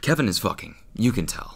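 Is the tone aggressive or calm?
calm. It is said calmly.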